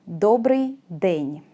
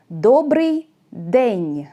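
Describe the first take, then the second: First: Добрий день slowly, ending lower; slow closing repeat of Добрий день. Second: Добрий день drawn out very slowly; very slow model of Добрий день; slow pronunciation demo. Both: Shown as a demonstration. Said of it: "де is more common".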